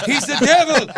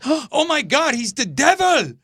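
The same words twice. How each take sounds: First: High, loud cry in mimicked accent; [name]'s accent. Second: High, loud horrified cry; mock freak-out. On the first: Singer accusing a visitor, shrieked in mimicked accent. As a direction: shriek it in her put-on accent. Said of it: "With her accent". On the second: Singer seeing him walk into the hotel, mock horrified cry. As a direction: imitate a woman shrieking in alarm. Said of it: "she really freaked out".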